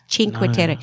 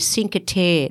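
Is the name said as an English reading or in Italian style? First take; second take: Italian style; English reading. First: The name is said in Italian style. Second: The name is said as an English reading. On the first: The speaker calls it right. "It's Cinque Terre" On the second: The speaker calls it wrong. "when people read that, they say Cinque Terre. That's not how you pronounce it"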